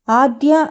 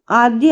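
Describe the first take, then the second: First: Aadya called sharply, barely raised; mild shout. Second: Mother snaps her daughter's name in anger; mild shout. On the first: Angry mother calls her daughter Aadya, understated shout. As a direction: call the child's name with restrained anger. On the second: Angry mother calls out Aadya, a mild mock shout. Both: A narrator's reading. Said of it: "అని గట్టిగా అరుస్తుంది".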